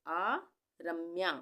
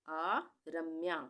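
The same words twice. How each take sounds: The two takes are said the same way.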